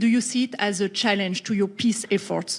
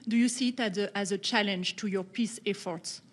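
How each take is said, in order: First: It is said at a louder volume. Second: It is said at a softer volume.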